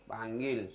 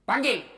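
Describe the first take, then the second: First: Said in the usual way. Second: Sharp loud summons, pitched high; calling out. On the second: Acted. Umar calling for the guard, loud high summons. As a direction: bark the order across the room.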